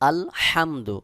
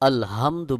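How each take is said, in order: First: The h comes from the middle of the throat. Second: The h is a plain, light breathy sound. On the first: The intended meaning is kept. The speaker calls it right. "সহি উচ্চারণ হলো আলহামদু, হলকের মধ্যখান থেকে এই হা উচ্চারণ করতে হবে" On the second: The meaning of the word changes. The speaker calls it wrong. "যদি আপনি আলহামদু বলেন তাহলে অবশ্যই এখানে অর্থ পরিবর্তন হয়ে যাবে"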